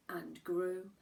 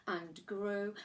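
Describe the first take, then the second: No difference in how they are said.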